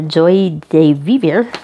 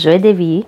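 First: It is sounded out letter by letter, English style. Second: It is said with a French pronunciation. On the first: The speaker calls it wrong. "if you're trying to sound that out phonetically" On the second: The speaker calls it right. "but it is Joie de Vivre. It is French"

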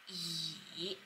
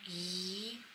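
First: The pitch dips low then rises. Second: The pitch rises from mid to high. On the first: "Third tone goes like e" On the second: "Second one goes 第二声 goes like e"

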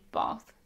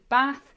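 First: It is said in a southern English accent. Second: It is said in a northern English accent. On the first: "but down here, it's definitely bath" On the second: "In the north, you'll say bath"

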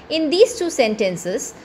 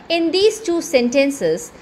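No difference in how they are said.

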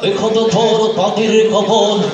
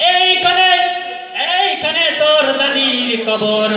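First: It is spoken in a mumbling, toothless old voice. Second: It is spoken in a put-on preacher's style. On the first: "দাঁত একটা নাই" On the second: "এবার আসছে একজন এলাকার ইমাম সাহেব"

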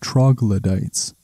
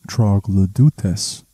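First: It is said with an English-style pronunciation. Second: It is said with a Latin/Greek-style pronunciation.

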